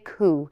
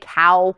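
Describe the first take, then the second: First: Cow is said with a Scottish oo vowel. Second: Cow is said with an American ow vowel.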